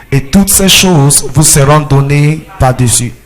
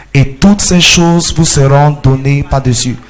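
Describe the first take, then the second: No difference in how they are said.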